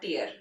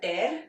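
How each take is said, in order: First: "tear" said like "teer", rhyming with ear; tear as teardrop. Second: "tear" said like "tare", rhyming with care; tear as rip. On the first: Teacher showing the teardrop meaning, "tear" rhyming with ear. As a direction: say "tear" to rhyme with fear. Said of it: "दूसरा T E A R". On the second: Teacher showing the rip meaning, "tear" rhyming with care. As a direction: say "tear" to rhyme with hair. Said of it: "एक है T E A R". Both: Shown as a demonstration.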